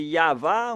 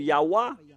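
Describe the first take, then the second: First: The middle consonant is a V sound. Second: The middle consonant is a W sound. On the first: The speaker calls it right. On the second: The speaker calls it wrong.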